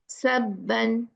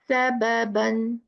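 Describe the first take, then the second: First: The two b sounds merge into one. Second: Both b sounds are pronounced separately. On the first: The speaker calls it wrong. "how it's pronounced wrong? ... One bar is ghaib" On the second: The speaker calls it right. "The right pronunciation is what?"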